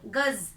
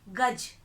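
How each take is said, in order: First: It ends with a z sound. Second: It ends with a j sound. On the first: It means a measure. "नुक्ता के साथ शब्द" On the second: It has a different meaning. "बिना नुक्ता के शब्द"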